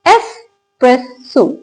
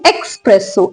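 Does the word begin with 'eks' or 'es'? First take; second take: es; eks. First: The word begins with an 'es' sound. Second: The word begins with an 'eks' sound. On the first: The speaker calls it right. "इसकी correct pronunciation" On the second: The speaker calls it wrong. "एक्स तो है ही नहीं"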